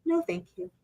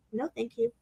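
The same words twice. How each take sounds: First: Soft, high, polite no; just say it gently and move on; quiet simple refusal. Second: Soft, simple polite no; quiet calm refusal. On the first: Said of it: "it's just as simple as". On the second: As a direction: say it softly without pushing. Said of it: "It was just so". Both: Retold or imitated.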